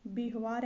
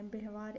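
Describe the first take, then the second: First: व्यवहार said as bih-vaar; wrong pronunciation. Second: व्यवहार said as beh-vaar, softer; correct pronunciation. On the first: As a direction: put an i in the first syllable of व्यवहार. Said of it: "ऐसे नहीं लिखा जाता है". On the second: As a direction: open the first vowel of व्यवहार to e. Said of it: "ऐसे लिखा जाता है". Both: Shown as a demonstration.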